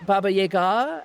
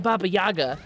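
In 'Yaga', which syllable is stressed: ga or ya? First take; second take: ga; ya. First: The stress falls on the syllable 'ga'. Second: The stress falls on the syllable 'ya'. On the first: "the ga is supposed to be stressed more than the ya" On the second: "because people say"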